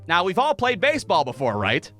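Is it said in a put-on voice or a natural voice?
natural voice. It is said in his natural voice.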